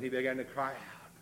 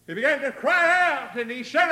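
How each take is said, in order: First: Said in the usual way. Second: Loud, high-pitched pulpit cry; preacher's shout. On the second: Real, not acted. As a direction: belt it out to the congregation. Verse repeated as a shout.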